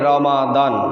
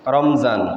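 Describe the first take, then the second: First: The m is followed by an a vowel. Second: The m is followed directly by a z-like consonant. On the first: The speaker calls it right. "জবর বিশিষ্ট মিম এর সাথে উচ্চারণ হবে" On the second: The speaker calls it wrong. "মিমের উপর সাকিন সহকারে উচ্চারণ করে থাকি"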